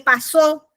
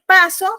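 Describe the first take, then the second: First: The stress is on the last syllable. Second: The stress is on the first syllable. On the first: "pasó lleva acento en la O" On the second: "paso no lleva acento en la O"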